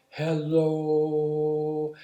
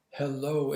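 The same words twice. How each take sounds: First: Hello with the O stretched out as one long sung tone; held sung hello. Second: Said in the usual way. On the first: Shown as a demonstration. Sung, showing a stab freeze stuck on a vowel. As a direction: sing and hold the O of hello. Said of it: "got caught on the O part of hello". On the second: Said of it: "if I was saying hello".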